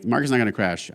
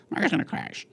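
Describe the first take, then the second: First: Said in the usual way. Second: Lightly put-on news pundit; a hint of mock newscaster; CNBC voice. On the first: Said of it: "I'm like". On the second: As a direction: mimic a TV market pundit. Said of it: "and that's how they speak".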